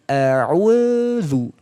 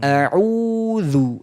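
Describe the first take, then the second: First: An extra 'w' glide comes before the 'dh'. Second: The 'dh' follows directly with no extra glide. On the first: The speaker calls it wrong. "Ada muncul suara we. ... malah nggak boleh" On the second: The speaker calls it right. "Tidak sampai timbul suara baru. ... langsung di situ"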